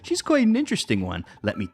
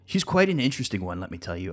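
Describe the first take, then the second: First: The voice stops fully after 'one'. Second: The voice runs on after 'one'.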